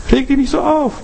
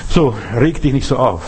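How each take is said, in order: First: "Reg dich nicht so auf" leapt up much higher; a sudden high repeat; raised pitch. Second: Said in the usual way. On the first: Shown as a demonstration. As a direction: lift the whole line up high, as a repeat.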